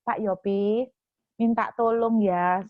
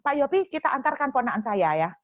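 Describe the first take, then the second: First: Slow, gentle asking; polite request. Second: Mock blunt command to Pak Yopi; just tell him, no please, mildly raised; blunt order. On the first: The ideal polite way to ask the host for help, slow and gentle. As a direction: ask kindly, unhurried. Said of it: "Dia itu nggak tanya gini". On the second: Guest orders the host to drive the nephew, mock blunt command. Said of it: "nggak pakai ngomong gitu langsung". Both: Shown as a demonstration.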